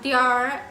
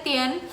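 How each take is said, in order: First: The word ends with an r sound. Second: The word ends without an r sound. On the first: This is how Beijing speakers say it. "जैसे कि वहाँ पे बोलते हैं" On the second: This is how local speakers here say it. "ये सिंपली बोलते हैं तियन"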